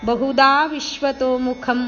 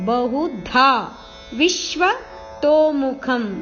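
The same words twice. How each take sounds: First: The syllable 'vi' gets no stress. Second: The syllable 'vi' is stressed. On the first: The speaker calls it wrong. "ಅಲ್ಲ" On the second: The speaker calls it right. "ವಿ ಮೇಲೆ ಆಘಾತ"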